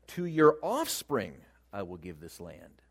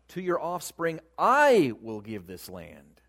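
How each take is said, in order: First: The stress is on "offspring". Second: The stress is on "I".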